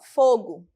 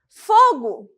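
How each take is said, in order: First: It is said calmly, as a neutral label. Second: It is said urgently, as an alarmed exclamation. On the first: It names a flame. "Quando eu digo apenas fogo, eu estou falando do quê? Chama" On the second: Something is on fire right now. "Quando eu digo que fogo ou está pegando fogo, algum lugar ou alguma coisa está em chama"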